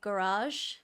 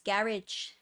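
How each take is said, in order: First: It is said with an American accent. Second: It is said with an English accent. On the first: "you Americans say garage" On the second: "in England it's garage"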